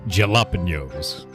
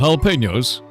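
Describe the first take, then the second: First: The word is said in a jokingly distorted way. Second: The word is said the usual, standard way. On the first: This is a made-up joke pronunciation. The speaker calls it right. "It's jalapenos" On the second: This is the normal pronunciation. The speaker calls it wrong. "It's not jalapenos"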